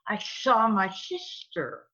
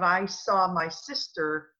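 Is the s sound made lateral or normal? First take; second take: lateral; normal. First: The s sounds are slushy and lateral. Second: The s sounds are made normally. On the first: The speaker calls it wrong. "the ones who have the lateral sounding speech" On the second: The speaker calls it right. "instead of"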